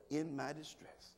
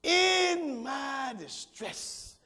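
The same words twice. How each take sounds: First: Dropped low and soft, rising at the end; soft repeat. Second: Preached shout. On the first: Pastor repeating the verse quietly so the church takes it home. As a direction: hand them the verse again softly. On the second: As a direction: hit it hard so it sticks with the congregation. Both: Shown as a demonstration. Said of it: "If you don't get nothing else, put that somewhere".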